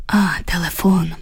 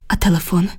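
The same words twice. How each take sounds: First: Falling "А", then "телефон" as a statement; realization. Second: "А телефон?" as a quick question. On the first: Julia remembers the phone, "А, телефон" in falling realization. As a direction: let "А" drop in recognition before "телефон". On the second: The narrator reminds Julia of the phone, "А телефон?" questioning. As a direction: ask "А телефон?" in one go, as a query. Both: A narrator's reading.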